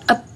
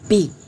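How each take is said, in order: First: The letter is said as a short sound. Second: The letter is said as its full name. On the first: "kalau abjad itu pelafalannya berbeda. B itu dibaca ep" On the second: "Kalau eja itu B itu dibaca B"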